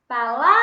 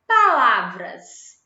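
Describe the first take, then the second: First: Palavras with LA loud and drawn right out; stress on LA. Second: Said in the usual way. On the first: Shown as a demonstration. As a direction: stretch the middle LA of Palavras, loudly. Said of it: "O lá". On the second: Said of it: "Qual é a sílaba tônica de palavras?".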